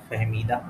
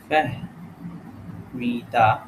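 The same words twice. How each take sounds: First: Said in the usual way. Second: Very slow Fahmida, broken into syllables; sounded out slowly. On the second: Shown as a demonstration. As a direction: dictate Fahmida piece by piece. Sounding out the answer word.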